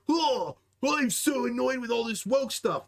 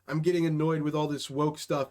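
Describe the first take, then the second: First: It is said in an exaggerated, overwrought tone. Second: It is said in a calm, neutral tone.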